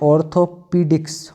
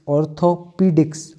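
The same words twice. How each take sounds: No difference in how they are said.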